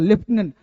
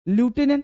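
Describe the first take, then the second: First: The first syllable sounds like 'lef'. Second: The first syllable sounds like 'loo'. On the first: The speaker calls it right. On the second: The speaker calls it wrong.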